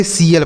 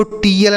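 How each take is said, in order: First: "सीएल" opening on an S sound; correct pronunciation. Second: "टीएल" with a hard T; wrong pronunciation. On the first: Teacher correcting the misreading, "सीएल" with S sound. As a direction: swap the T for S, "सीएल". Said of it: "सीएल पढ़ेंगे". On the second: Teacher warning students off the misreading, "टीएल" with hard T. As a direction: say "टीएल" as spelt, T sound kept. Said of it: "इसको टीएल नहीं पढ़ेंगे". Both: Shown as a demonstration.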